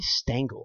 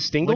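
First: The first syllable rhymes with 'ten'. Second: The first syllable rhymes with 'ring'. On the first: The speaker calls it wrong. "I always say Stengel" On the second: The speaker calls it right. "It's like jingle with an ST"

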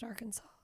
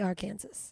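First: The word ends with a 'saw' sound. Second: The word ends with a 'sas' sound. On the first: This is the accepted pronunciation. "the fact that it's pronounced Arkansas" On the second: This follows the spelling. "Because it's clearly Arkansas"

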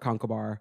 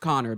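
First: The name is said with three syllables. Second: The name is said with two syllables. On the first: This is the older form of the name. "which is pronounced in older Irish Conkavar" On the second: This is the modern form of the name. "They dropped the middle syllable somewhere along the line, and it's now just pronounced Connor"

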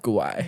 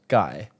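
First: It sounds like gwai, ending Uruguay. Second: It sounds like the word guy. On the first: The speaker calls it wrong. "not guai" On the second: The speaker calls it right. "Pronounced guy"

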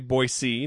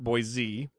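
First: The name is said the local native way. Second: The name is said a non-local way. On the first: The speaker is from the area. The speaker calls it right. "notice I'm a native, I say Boise" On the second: The speaker is not from the area. The speaker calls it wrong. "not Boise"

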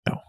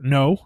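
First: The word is said quietly and mumbled. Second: The word is said loudly and clearly. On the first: The speaker calls it wrong. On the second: The speaker calls it right. "I should say that louder"

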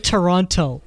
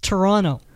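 First: The second T is clearly pronounced. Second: The second T is dropped. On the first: The speaker is not a local. The speaker calls it wrong. "Don't say Toronto" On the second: The speaker is a local. The speaker calls it right. "It's Toronto. There's no T"

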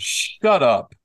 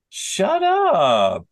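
First: It is said in a harsh, angry tone. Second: It is said in a light, teasing tone. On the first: The speaker is telling someone rude to be quiet. "If somebody is you know, saying something rude to you" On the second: The speaker is joking with a friend. "That's a playful way to say it"

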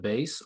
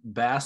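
First: It is said the standard way, unlike the fish. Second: It is said the country way, like the fish. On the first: "instead of bass" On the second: "Are you purposely saying bass ... or is that the way you say it in Mississippi? ... the country thing"

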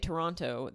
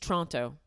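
First: It is pronounced the way outsiders say it. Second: It is pronounced the way locals say it. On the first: The speaker is not from the city. The speaker calls it wrong. "If you say Toronto, they're going to make fun of you" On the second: The speaker is from the city. The speaker calls it right. "It's Toronto"

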